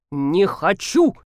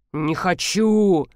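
First: Slow, firm refusal with a rise on хочу; slow defiant "Не хочу!"; flat declaration. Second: Very slow mumble, хочу falling away; sulky slow mutter of "Не хочу"; mumbled. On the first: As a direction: announce "Не хочу!" slowly, stressing хочу with a rising end. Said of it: "объявил полковник". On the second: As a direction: grumble "Не хочу" slowly, letting хочу drop. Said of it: "пробубнил Александр Михайлович". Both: Acted.

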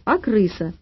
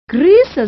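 First: Mildly displeased, in an everyday pitch; a touch of grumpy correction. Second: Loud, high yell of alarm. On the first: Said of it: "недовольно сказала Маня". (слегка недовольно) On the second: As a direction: yell it out in horror. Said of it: "заорала дама". (истошный крик) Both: A narrator's reading.

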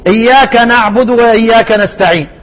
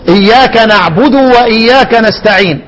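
First: إياك نعبد with the damma on the dal snatched short; imitated snatched vowel. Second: إياك نعبد said with the dal's damma fully voiced; full damma demo. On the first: Teacher imitating students who steal the damma. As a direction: clip the vowel of نعبد like careless readers. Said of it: "بعض إخواننا تسمع منه إيه؟". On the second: Shown as a demonstration. Teacher shows the correct Fatiha reading. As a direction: give نعبد its full u vowel. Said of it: "ضمة الدال".

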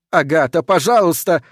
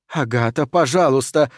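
First: Mild shouted plea, slightly raised; crying out. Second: Said in the usual way. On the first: A narrator's reading. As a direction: plead with some urgency. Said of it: "кричит профессор Прайс". (негромкий умоляющий выкрик) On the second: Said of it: "говорит профессор Прайс".

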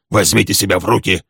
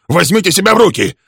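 First: Steady, moderate, stress on Возьмите; calm him down firmly. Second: Much higher, loud, stress on себя; shouted command. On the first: Friedman steadying Sutton. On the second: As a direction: yell at him to get a grip. Friedman restraining Leslie. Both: A narrator's reading.

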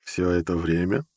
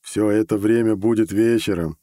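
First: Slow questioning echo with a slight scoff. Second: Said in the usual way. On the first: A narrator's reading. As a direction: repeat it slowly, rising at the end. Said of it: "фыркнул я". (слегка фыркая, медленный переспрос)

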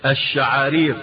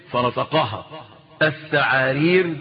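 First: الشعارير with a clear sh sound; الشعارير said properly with sh; correct sh. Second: الثعارير with th for sh; الثعارير lisped like a man who has lost his teeth. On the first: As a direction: say الشعارير crisply with sh. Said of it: "قال ايه؟". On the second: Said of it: "وهي تنطق بالشين". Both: Shown as a demonstration.

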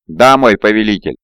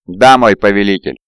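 First: A touch of sorrow in obedience; mournful. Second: Understated, coolly assured acknowledgement; cold and confident. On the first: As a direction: give in to your lord with understated grief. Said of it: "скорбно ответил Авгурам". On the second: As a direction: answer your lord with restrained, cool confidence. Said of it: "холодно и уверенно ответил". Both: A narrator's reading.

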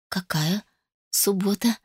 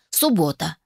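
First: Soft, faltering question with a rising end; feeble bleat. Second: An understated triumphant proclamation; solemn announcement. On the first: Daughter objecting to the chosen Saturday, bleating feebly. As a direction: bleat it out weakly. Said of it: "проблеяла я". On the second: Mother fixing the engagement day, solemnly. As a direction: declare it solemnly, with a falling end. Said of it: "торжественно заявила она". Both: A narrator's reading.

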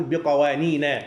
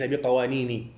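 First: بقوانين ending in fatha, biqawanina; correct diptote. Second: بقوانيني ending in kasra, biqawanini; wrong form, with kasra. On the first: Teacher gives students the correct ending of بقوانين. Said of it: "نقول بقوانين وليس بقوانيني". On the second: Teacher warns students off the wrong ending, biqawanini. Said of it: "وليس بقوانيني". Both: Shown as a demonstration.

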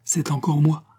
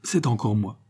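First: Higher, more confident repeat; encouraged, lifting the last word; emboldened. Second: Hesitant, timid announcement; understated timidity. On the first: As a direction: say it with fresh courage. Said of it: "encouragé par cette mansuétude". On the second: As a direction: offer it shyly, at ordinary pitch. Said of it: "balbutia timidement Raoul". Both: A narrator's reading.

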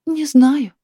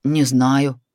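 First: A higher sighing "Не знаю" from the wife. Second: Husband's plain, slightly lower "Не знаю"; husband's reply. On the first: Wife answering husband, "Не знаю" sighed higher. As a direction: let "Не знаю" go on a weary sigh. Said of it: "опять вздохнула Наталья Васильевна". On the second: Husband answering wife about the cat, plain "Не знаю". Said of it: "ответил муж". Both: A narrator's reading.

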